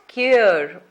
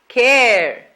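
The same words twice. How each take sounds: First: The vowel is not the 'air' sound. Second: The vowel is the 'air' sound. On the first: The speaker calls it wrong. "as it is commonly mispronounced" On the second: The speaker calls it right. "That's right"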